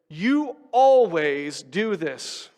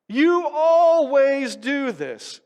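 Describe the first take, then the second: First: Slow, drawn-out accusing tone; mock accusation. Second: High, loud, slow accusation; exasperated accusing yell. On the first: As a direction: say it like a fed-up spouse. Demonstrating an angry accusation. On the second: Retold or imitated. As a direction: hurl the blame, stretched out. Repeating accusation louder.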